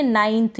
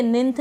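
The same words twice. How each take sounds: First: नाइन्थ said with the diphthong ai; correct pronunciation. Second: निन्थ said with a short i; wrong vowel demo. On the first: Teacher models the right ai sound, नाइन्थ. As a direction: clear model of नाइन्थ with a long ai glide. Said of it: "इसको हम नाइन्थ पढ़ेंगे". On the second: Teacher warns students off the short i in निन्थ. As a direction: shows the mistaken reading निन्थ, short i as in "ninth" misread. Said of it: "निन्थ नहीं पढ़ेंगे". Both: Shown as a demonstration.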